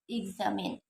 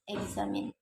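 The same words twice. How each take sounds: First: The first vowel is an e sound. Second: The first vowel is an a sound. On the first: The speaker calls it right. "this word should be pronounced examine" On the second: The speaker calls it wrong. "they tend to pronounce it examine"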